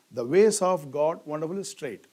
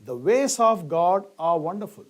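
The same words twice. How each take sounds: First: Wonderful moved to the front for emphasis; stress on wonderful. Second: Said in the usual way. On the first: Shown as a demonstration. Teacher showing emphasis on wonderful in a reordered sentence. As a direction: put the weight on wonderful. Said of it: "So here I want to emphasize this wonderful". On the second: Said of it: "I could have written sentence this way".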